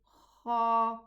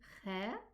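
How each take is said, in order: First: The kha sounds heavy, with a full mouth. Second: The kha sounds light, without a full mouth. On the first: The speaker calls it right. "Fill your mouth with the sound of this letter. So it becomes elevated" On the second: The speaker calls it wrong. "Do we say kha? No"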